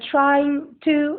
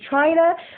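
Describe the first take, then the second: First: Both words are said fully and separately. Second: The words are run together into one reduced form.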